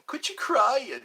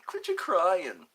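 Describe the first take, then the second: First: Higher, louder "Quit you crying" snapped at himself; mock scolding. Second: "Quit you crying" dragged out slowly in a put-on voice; slower mock parent scold. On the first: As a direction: scold yourself like a stern parent. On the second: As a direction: drawl it like a fed-up parent. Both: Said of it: "Maybe I should quit crying".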